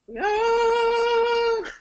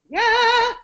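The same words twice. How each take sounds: First: It is said with nasal resonance. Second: It is said without nasal resonance.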